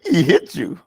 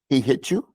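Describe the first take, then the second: First: It is said in a teasing, mocking way. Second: It is said as a questioning remark. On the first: The speaker is making fun of the listener. "I'm like making fun of you" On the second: The speaker is asking whether it happened. "That's a question"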